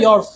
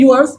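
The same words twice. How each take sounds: First: "Yours" as a single syllable, "yors"; spoken pronunciation. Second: "yours" sounded out as "yoo-ars"; read as written. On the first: Teacher modelling speech for pupils, "Yours" as "yors". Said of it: "लेकिन बोलने में कैसा आता है". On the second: Teacher reading the spelling to pupils, "yours" as "yoo-ars". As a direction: stretch "yours" into two syllables, YOO-ars. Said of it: "लिखा हुआ है yours". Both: Shown as a demonstration.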